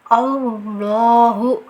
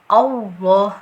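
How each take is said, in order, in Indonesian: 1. Bibir membulat, menambahkan bunyi w. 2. Bibir tetap tidak membulat, tanpa bunyi w.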